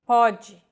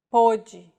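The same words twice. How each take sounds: First: Pode with an open o, PAW-jee; Pode, open vowel POH-jee with a broad o. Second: Pode with a closed o, POH-jee; pode, closed vowel like pôde. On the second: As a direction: keep the o of pode tight and closed. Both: Shown as a demonstration. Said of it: "this mark may or may not refer to the vowel".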